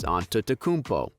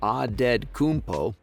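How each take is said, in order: First: The T sounds are pronounced as T sounds. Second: The T sounds are pronounced as D sounds. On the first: It follows the Greek way of saying it. The speaker calls it wrong. "if you want the Greek way" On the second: It follows the Nigerian way of saying it. The speaker calls it right. "in the Nigerian way"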